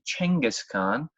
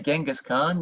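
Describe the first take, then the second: First: The name begins with a Ch sound. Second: The name begins with a G sound. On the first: The speaker calls it right. "So it should actually be Chenghis Khan" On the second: The speaker calls it wrong. "you have actually been saying it wrong"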